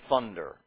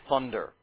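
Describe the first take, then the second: The two takes are said the same way.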